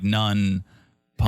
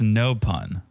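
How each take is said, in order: First: An n sound joins the first word to the second. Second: The first word ends cleanly without an n sound. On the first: The speaker calls it wrong. "you're combining no and pun, and you're doing like none pun" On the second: The speaker calls it right. "it was just no pun"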